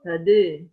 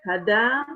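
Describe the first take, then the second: First: The final vowel is raised toward e. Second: The final vowel is an open, clear a. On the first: "bil taklil" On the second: "bil fathi"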